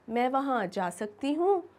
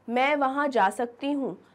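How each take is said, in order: First: It is said as a question. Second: It is said as a firm statement.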